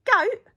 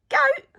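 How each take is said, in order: First: High, loud puzzled goat; surprised question. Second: Very high, loud outraged goat; bigger shock. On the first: Pirate hears goat stew offered, surprised and high. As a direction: question it with shock. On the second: Pirate repeats goat in disbelief, very high. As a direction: squeal it in disbelief. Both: A narrator's reading.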